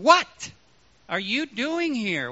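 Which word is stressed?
what. The stress falls on the word what. The asker wants to know what is going on. "What is going on, Elijah?"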